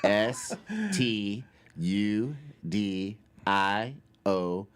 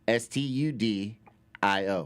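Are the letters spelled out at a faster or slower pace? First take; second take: slower; faster. First: The letters are spelled out slowly. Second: The letters are spelled at a normal pace.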